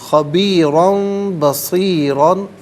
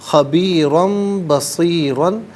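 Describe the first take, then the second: No difference in how they are said.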